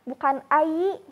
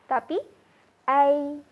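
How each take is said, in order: First: The diphthong is said harder, less smoothly. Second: The diphthong is said softer and smoother. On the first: The speaker calls it wrong. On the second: The speaker calls it right. "Lebih lembut ya sahabat"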